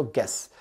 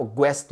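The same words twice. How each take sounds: First: "गेस" with a hard g straight into e; correct, silent U. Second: "ग्वेस" with a w glide after the g; wrong, U sounded. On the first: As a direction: say "गेस" as gess, no w. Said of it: "आप क्या बोलते हो". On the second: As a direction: say "ग्वेस" as gwess. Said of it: "ग्वेस नहीं पढ़ते हो". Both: Shown as a demonstration.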